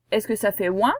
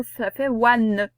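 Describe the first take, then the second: First: "ouin" said as the nasal sound; plain nasal "ouin". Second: "ouane" slowly with a clear n, not nasal; broken sound ouane. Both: Shown as a demonstration.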